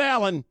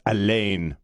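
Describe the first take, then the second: First: Alan said the plain English way, AL-an; the wrong, English Alan with a flat short vowel; anglicized name. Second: Alain said slowly with a French nasal ending, ah-LAN; the right, French Alain, slow and nasal; French pronunciation. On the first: Host correcting himself on the name: plain English Alan. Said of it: "It's Alain". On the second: Host correcting the name for listeners: slow French Alain. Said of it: "Not Alan". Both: Shown as a demonstration.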